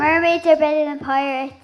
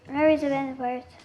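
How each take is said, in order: First: It is said loudly. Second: It is said quietly and reluctantly.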